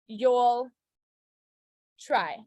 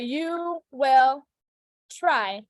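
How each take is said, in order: First: You and will merge into one syllable. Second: The words you and will are said separately. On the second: "Or you will try"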